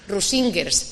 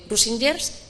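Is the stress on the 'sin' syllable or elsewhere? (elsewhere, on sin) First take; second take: on sin; elsewhere. First: The stress is on the 'sin' syllable. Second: The stress is not on the 'sin' syllable. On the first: The speaker calls it right. "con acento en la I" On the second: The speaker calls it wrong. "si lo he dicho mal"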